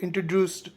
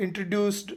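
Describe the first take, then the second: No difference in how they are said.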